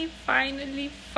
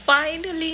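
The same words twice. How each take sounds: First: Finally stretched very slow, then softer; drawn-out finally. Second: Finally thrown up high and loud; excited finally. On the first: Teasing viewers who waited for the home tour, slow drawl. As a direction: savour finally, pulling it out long. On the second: Announcing the long-awaited home tour to viewers, excited. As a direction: burst out with finally, higher and louder. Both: Real, not acted.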